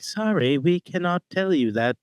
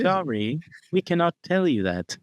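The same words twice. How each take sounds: First: Put-on higher-pitched robot with a British accent. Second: Higher-pitched retro robot. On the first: Host imagines a robot refusing to share secrets, British robot voice. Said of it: "I don't know why I made him British". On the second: Acted. Host redoes his robot refusing a secret, robot voice. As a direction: deliver it as an old-fashioned talking machine. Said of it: "that's what it would sound like".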